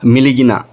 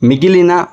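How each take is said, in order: First: The middle syllables are li then gi. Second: The middle syllables are gi then li.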